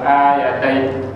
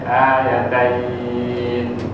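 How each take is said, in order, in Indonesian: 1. Akhirannya terputus mendadak dan pendek. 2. Akhirannya lembut dan memanjang perlahan. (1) "Tak boleh tiba-tiba" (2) "jadi lembut, jadi punya landing tu slow motion"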